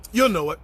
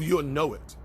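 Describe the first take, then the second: First: "You'll know it" punched out louder and firm; louder insistence on "You'll know it"; emphatic repeat. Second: Said in the usual way. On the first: Real, not acted. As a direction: drive home "You'll know it" with weight. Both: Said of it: "You'll emphatically know it".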